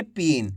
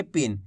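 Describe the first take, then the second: First: "पीन" with a drawn-out ee; stretched long i. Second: "पिन" said quickly with a short i. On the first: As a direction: linger on the vowel in "पीन". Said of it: "ऐसे नहीं पढ़ेंगे". ("पीन" में ई को लंबा खींचकर) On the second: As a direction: get through the vowel in "पिन" fast. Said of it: "तेजी के साथ इसका उच्चारण करेंगे". ("पिन" तेज़ी से, छोटी इ के साथ) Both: Shown as a demonstration.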